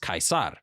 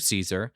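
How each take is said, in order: First: It is said with a classical Latin pronunciation. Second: It is said with an English pronunciation. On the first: "Julius would have referred to himself as Caesar" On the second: "The British would say his name the same way that Americans do"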